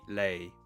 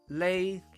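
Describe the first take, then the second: First: The syllable is said in tone six. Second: The syllable is said in tone one. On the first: "So that's the six of them" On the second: "One would be lei"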